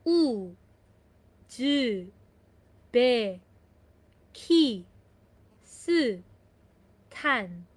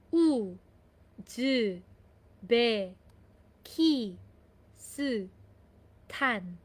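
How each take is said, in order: No difference in how they are said.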